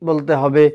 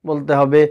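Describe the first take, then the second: The two takes are said the same way.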